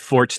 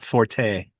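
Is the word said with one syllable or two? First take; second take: one; two. First: It is said as one syllable, like fort. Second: It is said as two syllables, ending in tay. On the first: The speaker calls it right. "that's how you pronounce it. It's fort" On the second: The speaker calls it wrong. "not forte"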